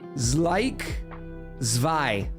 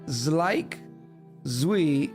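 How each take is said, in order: First: The second name starts with a V sound. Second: The second name starts with a W sound. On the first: This is the German way of saying it. "W is V in German ... Nailed it" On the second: This is the American way of saying it. "it's like Zlik Zwi for American"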